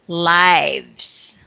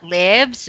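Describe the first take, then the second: First: The vowel is long, as in 'five'. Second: The vowel is short, as in 'give'. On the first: It is the plural of life. The speaker calls it right. "The plural of life, lives" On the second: It is the verb meaning to reside. The speaker calls it wrong. "it's not lives"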